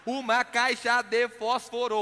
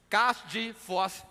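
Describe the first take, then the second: First: "Uma caixa de fósforo" slowly, each syllable separate; over-careful, syllable-by-syllable "Uma caixa de fósforo"; every syllable sounded. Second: "Caixa de fósforo" cut down to "cas di fós"; Minas-style truncated "Caixa de fósforo", as "cas di fós"; Mineiro syllable-dropping. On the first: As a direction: fully articulate "Uma caixa de fósforo", every vowel pronounced. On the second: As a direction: drop the endings of "Caixa de fósforo", stopping on "fós". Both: Shown as a demonstration. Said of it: "reduzir a quantidade de sílabas".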